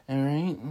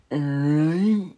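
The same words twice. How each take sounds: First: Said in the usual way. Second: High, loud, stretched-out put-on voice; exaggerated drawn-out sign-off. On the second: Speaker clowning at the sign-off, exaggerated drawn-out voice. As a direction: draw it right out, high and loud.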